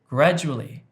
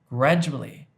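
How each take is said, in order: Both takes have the same delivery.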